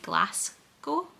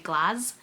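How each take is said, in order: First: The first syllable sounds like the word 'glass'. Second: The first syllable does not sound like 'glass'. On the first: The speaker calls it wrong. "the American way, where they say Glasgow, like glass" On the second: The speaker calls it right. "where we would say Glas"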